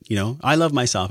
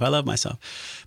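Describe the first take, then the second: First: Said in the usual way. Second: Softer, slower, sincere self-affirmation; tender and soft. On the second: Shown as a demonstration. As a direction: say it gently, meaning it. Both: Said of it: "self-love".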